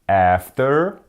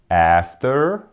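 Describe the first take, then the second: Both takes have the same delivery.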